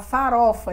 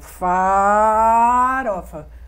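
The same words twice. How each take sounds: First: The word is said smoothly with no stretched sound. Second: A vowel in the word is held and stretched. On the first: This is the word the person means to say. "falar farofa" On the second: A person who stutters prolongs a sound. "Ou então na vogal, mas ele dá uma esticada"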